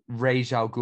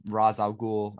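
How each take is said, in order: First: "Ra's" said as "raysh", with a long AY vowel; alternative pronunciation. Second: "Ra's" said as "rahz", with an open AH; film's pronunciation. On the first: Podcaster giving both names of a villain, "Ra's" said like "raysh". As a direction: say "Ra's" to rhyme roughly with "beige". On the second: Podcaster correcting to the film's version, "Ra's" said like "rahz". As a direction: say "Ra's" with the AH of "father" and a final Z. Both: Shown as a demonstration. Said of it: "as it's pronounced in this".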